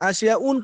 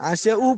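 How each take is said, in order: First: The word ends with an added n sound. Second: The word ends on a vowel without n. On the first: The speaker calls it wrong. "আশিয়া উন পড়ি না" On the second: The speaker calls it right. "আশিয়া উ পড়ি"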